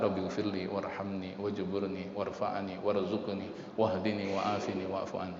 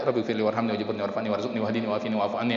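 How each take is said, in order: First: The prayer is recited at a slower pace. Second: The prayer is recited at a quicker pace.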